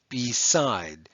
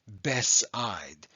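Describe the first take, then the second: First: The first vowel is a long E sound. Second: The first vowel is a short E sound. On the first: The speaker calls it right. "We have a long E there" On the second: The speaker calls it wrong. "You must be short. And that means that we would pronounce this as Bess"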